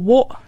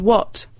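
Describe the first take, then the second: First: The final T is dropped and replaced by a catch. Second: The final T is clearly pronounced at the end. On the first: "T's and say words like water or what" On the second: "instead of water and what"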